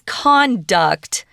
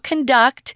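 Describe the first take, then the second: First: The stress is on the first syllable. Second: The stress is on the second syllable. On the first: It is a noun meaning how someone behaves. "This is conduct" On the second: It is a verb meaning to lead or direct. "It's not conduct, which we usually use as a verb"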